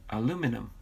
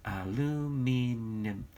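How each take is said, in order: First: Said in the usual way. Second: "Aluminum" drawn out very slowly, syllable by syllable; sounded out as spelt. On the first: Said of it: "Like minimum". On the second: Shown as a demonstration. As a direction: stretch each vowel of "Aluminum", as if reading the spelling. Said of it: "Read it like I spelt it".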